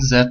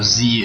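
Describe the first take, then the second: First: The letter is said as zed, non-American style. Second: The letter is said as zee, American style.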